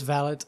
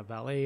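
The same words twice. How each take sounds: First: "valet" with the final t sounded; "valet" rhyming with mallet; British-style valet. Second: "valet" with a silent t; "valet" ending in an open ay sound; American-style valet. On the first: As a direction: say "valet" as VAL-it, stress up front. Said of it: "It is valet". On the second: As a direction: say "valet" as val-AY. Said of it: "in America we call that a valet". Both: Shown as a demonstration.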